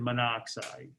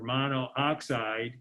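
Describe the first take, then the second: First: Only one vowel is said before 'oxide'. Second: Two vowels are said together before 'oxide'. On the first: The speaker calls it right. "we say carbon monoxide" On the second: The speaker calls it wrong. "instead of saying carbon monooxygen or monooxide"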